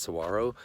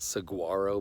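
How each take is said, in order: First: "saguaro" as sa-WAR-o, g silent; silent-g pronunciation. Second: "saguaro" with a hard g, sa-GWAR-o; spelling pronunciation. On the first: Traveler showing how it is pronounced, "saguaro" said as sa-WAR-o. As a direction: glide over the g in "saguaro" with a w. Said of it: "I think it's pronounced saguaro". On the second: Traveler showing how it is spelled, "saguaro" said with a hard gw. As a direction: sound the written g in "saguaro". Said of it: "It's spelled saguaro". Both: Shown as a demonstration.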